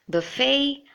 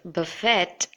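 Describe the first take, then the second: First: The word ends without any T sound. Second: The word ends with a clear T sound. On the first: The speaker calls it right. "The T is silent" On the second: The speaker calls it wrong. "should not be pronounced as buffet with a T"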